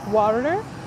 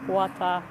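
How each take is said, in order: First: It is said in a Southwestern American accent. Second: It is said in a Chinese accent. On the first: "Maybe in the U S it's in Southwest it will be water" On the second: "In China"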